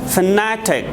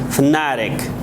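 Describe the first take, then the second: First: It is said with a British accent. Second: It is said with an American accent. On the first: "In British English, we pronounce it fanatic" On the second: "but in American English, we have to pronounce it fanatic"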